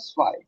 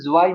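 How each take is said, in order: First: The word begins with an s sound. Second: The word begins with a j sound. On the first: The speaker calls it right. "ये हो जाएगा स्वाय" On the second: The speaker calls it wrong. "इसे ज्वाई मत पढ़ना"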